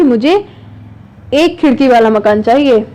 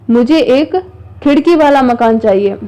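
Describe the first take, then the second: First: Pause, then hit "एक"; "एक" held as the strongest word, falling after; stress on एक. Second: Pause, then lean on "खिड़की वाला"; emphasis lands on "खिड़की वाला", set off by a break; stress on खिड़की वाला. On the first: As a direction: set off "एक" with a break and lean on it. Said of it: "एक खिड़की वाले पे मैंने ज़्यादा जोर दिया". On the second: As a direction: highlight "खिड़की वाला" over the other words. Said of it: "उस पे विशेष बल दिया". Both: Shown as a demonstration.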